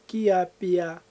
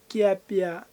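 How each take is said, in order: No difference in how they are said.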